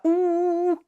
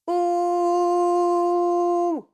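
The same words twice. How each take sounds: First: The vowel is covered and muffled by the lips. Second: The vowel is open and resonant, not muffled. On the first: The speaker calls it wrong. "et pas OU. Pas ça" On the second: The speaker calls it right. "comme on n'utilise pas les lèvres, on ne couvre pas trop le son"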